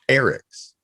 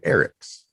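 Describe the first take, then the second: First: The word starts with a hard, forceful E. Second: The word starts with a soft, gentle E. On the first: Something belongs to Eric. "When it's possessive, you start off more dominant" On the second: There is more than one Eric. "it comes out more passively when it's just a plural"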